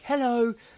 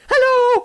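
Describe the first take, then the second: First: It is said at a normal pitch and volume. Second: It is said very high-pitched and loud. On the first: It is a greeting to a passing person. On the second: It is a greeting to a dog.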